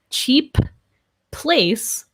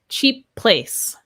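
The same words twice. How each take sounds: First: Both P sounds are said separately and clearly. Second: The two P sounds blend into one. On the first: The speaker calls it wrong. "So I would not say cheap place" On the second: The speaker calls it right. "It just blends, links to that next P consonant"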